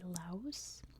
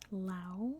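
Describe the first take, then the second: First: The word ends with an audible s sound. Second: The word ends without an s sound. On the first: This is how Americans say it. "in American English we say Laos. We pronounce the S" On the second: This is how most of the world says it. "it's pronounced Lao. ... silent S's at the end"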